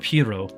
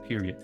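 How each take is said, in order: First: The name is said ending in an oh sound. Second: The name is said like the word period. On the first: The speaker calls it right. "It's Studio Pierrot, as in a clown" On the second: The speaker calls it wrong. "I pronounce it Studio Period"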